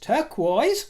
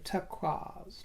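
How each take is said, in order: First: It uses the common everyday pronunciation. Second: It uses an old-fashioned, refined pronunciation. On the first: It sounds ordinary and unrefined. The speaker calls it wrong. "How common, my dear" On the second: It sounds genteel and old-world. The speaker calls it right. "an antiquated version of the pronunciation"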